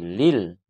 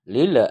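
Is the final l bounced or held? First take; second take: held; bounced. First: The final l is held without a bounce. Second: The final l is released with a bounce. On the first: The speaker calls it right. "tetapi lil ditahan" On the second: The speaker calls it wrong. "Tidak boleh mantul, lil tidak boleh"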